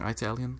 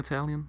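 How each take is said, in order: First: The word is said in a Southern US way. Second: The word is said in a standard way. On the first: The speaker calls it wrong. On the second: The speaker calls it right.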